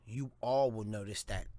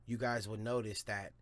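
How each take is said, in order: First: ALL louder and leaned on; stress on ALL. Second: Said in the usual way. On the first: Real, not acted. Host fixing his own slip to listeners, stress on "all". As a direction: correct yourself by landing hard on "all". Corrects guys to you all.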